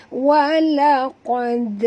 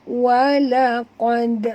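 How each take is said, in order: No difference in how they are said.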